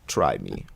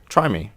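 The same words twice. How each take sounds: First: It is said in an imitation of Doomfist's voice. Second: It is said in his normal voice.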